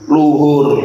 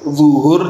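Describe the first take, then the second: First: The word begins with an l sound. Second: The word begins with a z sound.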